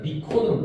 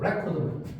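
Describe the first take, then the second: First: The stress is on the second syllable. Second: The stress is on the first syllable. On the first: It is the verb, to record. "동사가 되는 거지" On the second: It is the noun, a record. "앞에 있는 거"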